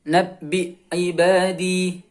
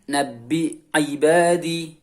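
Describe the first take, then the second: No difference in how they are said.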